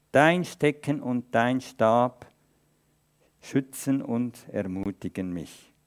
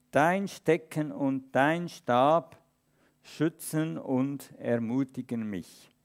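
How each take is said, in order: The two takes are said the same way.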